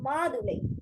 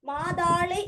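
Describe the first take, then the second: First: The second syllable is pronounced 'thu'. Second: The second syllable is pronounced 'thaa'. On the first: This is the standard form. The speaker calls it right. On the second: This is the colloquial spoken form. The speaker calls it wrong.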